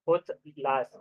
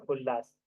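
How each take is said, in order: First: उल्लास said as ut-las, t and l apart; split form. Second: उल्लास with a long double l, ullas; joined form. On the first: Teacher to students, splitting the word, ut-las. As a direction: break उल्लास into उत् plus लास. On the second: Teacher to students, giving the joined form, ullas. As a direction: run उल्लास together as one word. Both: Shown as a demonstration.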